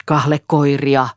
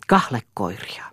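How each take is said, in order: First: Slow, drawn-out shouted word; understated shout. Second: Said in the usual way. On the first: A narrator's reading. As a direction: call it out loudly, stretching the word. (venytetty, hillitty huuto) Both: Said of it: "huusi Eero".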